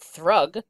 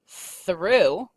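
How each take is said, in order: First: The word ends with a hard g sound. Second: The word ends in a vowel sound. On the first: The speaker calls it wrong. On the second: The speaker calls it right.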